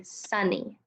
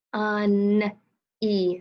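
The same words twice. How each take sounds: First: Said in the usual way. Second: "Sunny" drawn out, each sound held apart; tapped-out sounds. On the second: Shown as a demonstration. Teacher asking what comes next, "Sunny" tapped out by sound. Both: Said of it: "Let's tap it out".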